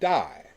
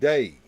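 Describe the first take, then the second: First: The name rhymes with 'die'. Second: The name rhymes with 'day'. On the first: This is how people reading the spelling said the name. "everybody looked at D A I and pronounced it die" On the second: This is how his friends said the name. "all of his friends called him Day"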